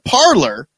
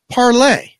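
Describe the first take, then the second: First: The word ends with an 'er' sound. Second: The word ends with an 'ay' sound. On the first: The speaker calls it wrong. "they don't even know how to say it. They call it Parler" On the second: The speaker calls it right. "But it's Parlay"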